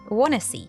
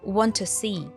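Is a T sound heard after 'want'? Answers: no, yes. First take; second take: no; yes. First: It is said as wanna see. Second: It is said as want tə see. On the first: "it can even be reduced to wanna see" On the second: "Want to see has a schwa sound"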